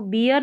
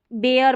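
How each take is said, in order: First: बियर said as beer, the wrong way; wrong reading. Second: बेयर said as bear with an open e; right reading. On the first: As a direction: show the mistake बियर. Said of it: "बियर नहीं पढ़ेंगे". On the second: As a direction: give the correct बेयर. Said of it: "बेयर पढ़ेंगे". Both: Shown as a demonstration.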